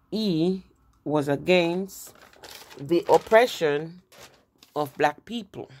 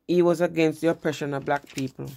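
First: Against and oppression drawn out slowly, word by word; slow right down and lean on the point; slow emphatic restatement. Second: Said in the usual way. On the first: Shown as a demonstration. Teacher drives home Lincoln's stance to students, slow and emphatic.

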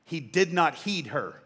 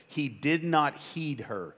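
First: "He did not heed her" read slowly, "not" leaned on. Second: Slow, weighty scripture reading. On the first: Preacher relishing his favourite verse, slow and deliberate. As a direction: savour each word of the verse. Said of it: "But I love this word". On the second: Preacher reading the verse to the church, slow and weighty. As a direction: stress on "not" in "He did not heed her", said slowly. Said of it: "Look what it says". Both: Shown as a demonstration.

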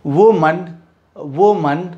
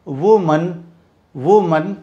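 Both takes have the same delivery.

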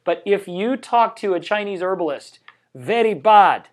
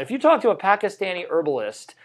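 First: Put-on Pakistani accent. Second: Said in the usual way. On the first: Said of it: "that was a terrible, ... more like a Pakistani accent". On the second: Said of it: "more like a Pakistani accent".

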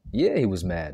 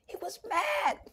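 First: Said in the usual way. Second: Breathy hushed whisper, high and soft. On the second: Acted. Preacher to his listeners, whispering the line. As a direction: drop it to a secret whisper.

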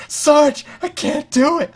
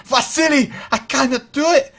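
First: High, loud mock-panicked wail; panicked soldier. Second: Put-on high, loud panicked Soviet accent; bad Soviet accent. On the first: Broken soldier begging the sergeant under fire, mock panic. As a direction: play a scared soldier pleading to the sergeant. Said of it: "they're like". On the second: Scared soldier pleading to a comrade, panicked mock Soviet accent. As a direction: wail it in a hammy Soviet accent. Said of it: "meant to be a Soviet accent".

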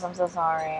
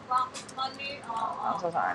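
First: Said in the usual way. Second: Slow, higher put-on apology; mock sorry voice. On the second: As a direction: stretch it out in a silly squeaky voice.

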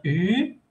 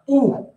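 First: U said as French "ü", rising at the end. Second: U said as "oo", as in "tú"; back U, "oo". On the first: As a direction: say U as "ee" with rounded lips. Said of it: "Esta es una U". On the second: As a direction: say U as a Spanish "oo". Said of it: "y esta es una U". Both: Shown as a demonstration.

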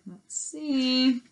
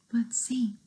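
First: Said in the usual way. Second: Unvoiced whisper. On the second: Whispered to listeners.

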